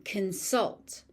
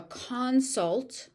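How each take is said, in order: First: "consult" as a verb, kun-SULT; weak first vowel in "consult", punch the "sult"; stress on second syllable. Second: "consult" as a noun, CON-sult; stress on first syllable. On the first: Teacher showing learners the verb "consult", stressed on SULT. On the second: Teacher showing learners the noun "consult", stressed on CON. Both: Shown as a demonstration. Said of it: "also follows pattern one".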